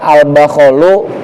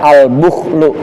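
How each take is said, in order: First: Both b and kh carry an 'a' vowel. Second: The b has 'u' and kh has no vowel. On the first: "dengan fathah huruf ba, wal kha'il mu'jamati" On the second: "ba-nya dhammah, kha-nya sukun"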